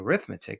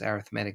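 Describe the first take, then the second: First: It has the stress pattern of the noun. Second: It has the stress pattern of the adjective. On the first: It names the school subject. "you'll say arithmetic because it's a noun" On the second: It describes a kind of sequence. "arithmetic is how you would say a sequence because arithmetic is an adjective"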